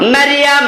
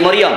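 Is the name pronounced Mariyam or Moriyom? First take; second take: Mariyam; Moriyom. First: The name is pronounced Mariyam, with open a vowels. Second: The name is pronounced Moriyom, with o vowels. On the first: The speaker calls it right. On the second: The speaker calls it wrong.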